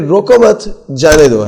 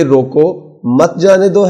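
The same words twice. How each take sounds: First: "روکو مت" run together, pause, then "جانے دو"; pause after مت. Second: "روکو" set apart, pause, then "مت جانے دو" run together; pause after روکو. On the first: Narrator showing the other possible phrasing, pause after "مت". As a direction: break after مت, stressing it, slowly and deliberately. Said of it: "ہے یا پھر". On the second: Narrator showing how he chose phrasing before recording, pause after "روکو". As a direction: break after روکو, so "مت جانے دو" is one slow, deliberate phrase. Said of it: "کو بولنے سے پہلے یہ فیصلہ کرتے تھے". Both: Shown as a demonstration.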